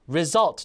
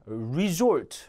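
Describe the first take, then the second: First: The stress is on the second syllable. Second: The stress is on the first syllable. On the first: The speaker calls it right. "뒤에 강세 주고" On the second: The speaker calls it wrong. "resort가 아니라"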